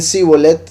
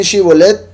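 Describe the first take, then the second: First: Sibolet with a plain s; wrong Sibolet. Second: Shibolet with a clear sh; correct Shibolet. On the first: Teacher contrasts the Ephraimite s pronunciation. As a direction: say Sibolet with s, not sh. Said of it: "Si dicen Sibolet". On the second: Teacher contrasts the tribe's test word with sh. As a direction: say Shibolet with sh, lightly raised. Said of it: "si dicen Shibolet". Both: Shown as a demonstration.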